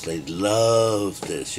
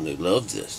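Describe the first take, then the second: First: Drawn out very slowly; slow savoring. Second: Said in the usual way. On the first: Real, not acted. Mocking the people who love it, slow and savoring. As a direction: stretch every word.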